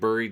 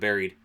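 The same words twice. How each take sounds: First: The word is said with an Eastern regional pronunciation. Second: The word is said with a non-Eastern pronunciation. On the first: "It's Eastern, so I'm saying buried" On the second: "instead of buried"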